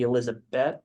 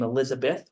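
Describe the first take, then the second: First: The name ends with a t sound. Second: The name ends with a th sound.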